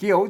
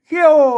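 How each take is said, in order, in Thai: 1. พยางค์นี้ใช้เสียงขึ้น. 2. พยางค์นี้ใช้เสียงตก. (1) "เขียวเสียงจัตุวา" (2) "เขี้ยวเสียงโท"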